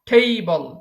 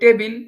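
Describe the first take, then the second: First: It starts with an aspirated t, like th. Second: It starts with a plain, unaspirated t. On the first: The speaker calls it right. "যেহেতু আমরা পড়েছি কি ঠ" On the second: The speaker calls it wrong. "এটাকে আমরা বলি টেবিল"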